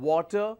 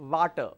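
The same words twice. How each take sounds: First: It begins with a W sound, lips rounded. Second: It begins with a V sound, lip bitten. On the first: The speaker calls it right. "so I say water" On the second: The speaker calls it wrong. "I don't say water"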